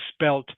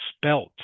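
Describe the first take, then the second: The two takes are said the same way.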